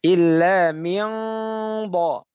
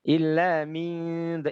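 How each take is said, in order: First: The consonant is pronounced heavy and thick. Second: The consonant is pronounced thin and light. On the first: The speaker calls it right. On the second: The speaker calls it wrong.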